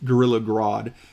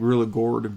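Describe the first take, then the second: First: The name is said with an 'od' sound. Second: The name is said with an 'or' sound. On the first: The speaker calls it right. "but I think it's Grodd" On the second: The speaker calls it wrong. "I always call him Gorilla Gord"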